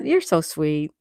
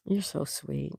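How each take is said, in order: First: Said in the usual way. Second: A quiet, touched echo of the thanks; soft murmured repeat. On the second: Real, not acted. Thanking a viewer, echoing it much softer. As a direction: say it again much softer, almost to yourself.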